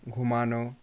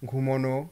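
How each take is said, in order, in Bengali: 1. মাঝের স্বরধ্বনিটি 'a' ধ্বনি। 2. মাঝের স্বরধ্বনিটি 'o' ধ্বনি। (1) "আনো" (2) "অনো"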